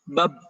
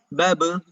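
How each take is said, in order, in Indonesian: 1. b di akhir ditahan rapat tanpa dilepas. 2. b di akhir dilepas dengan gema memantul. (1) "ininya terlalu ditahan" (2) "Jadi harusnya gimana?"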